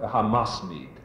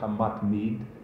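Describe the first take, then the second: First: The middle consonant is an s sound. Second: The middle consonant is a t sound. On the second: "it wasn't Hamatmid"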